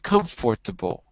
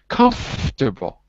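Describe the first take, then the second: First: The middle syllable is pronounced fully. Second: The middle syllable is dropped out. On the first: The speaker calls it wrong. "We don't say comfortable" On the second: The speaker calls it right. "So the fort disappears"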